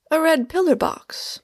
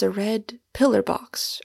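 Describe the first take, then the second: First: High, astonished exclamation; startled, high-pitched disbelief; astonished cry. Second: Said in the usual way. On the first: A narrator's reading. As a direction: cry it out in amazement, pitched well up. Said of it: "I cried in astonishment".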